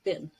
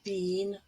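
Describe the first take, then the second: First: The vowel is the short 'i' sound. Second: The vowel is not the short 'i' sound. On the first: The speaker calls it right. "has the I form, silver" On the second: The speaker calls it wrong. "Not been"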